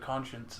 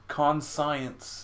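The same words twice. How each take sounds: First: The ending is not said like science. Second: The ending is said like the word science. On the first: The speaker calls it right. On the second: The speaker calls it wrong.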